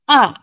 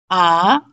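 First: The syllable is said with the fourth tone. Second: The syllable is said with the second tone. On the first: "fourth tone" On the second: "second tone"

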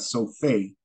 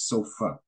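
First: The final vowel is said full and long. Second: The final vowel is said short and reduced. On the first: The speaker calls it wrong. "It's not sofe" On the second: The speaker calls it right. "Or the A in sofa"

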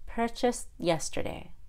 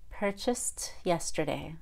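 First: The T is held without being released. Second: The T is released with a puff of air. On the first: "then the held T" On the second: "and then the aspirated T"

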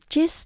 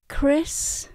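First: The word begins with a 'ch' sound. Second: The word begins with a 'k' sound. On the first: The speaker calls it wrong. "Mình không đọc là chis nha các bạn" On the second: The speaker calls it right. "C và H chúng ta không đọc là âm chờ mà mình đọc là âm cờ"

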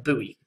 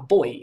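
First: The word is said with an American pronunciation. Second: The word is said with a non-American pronunciation.

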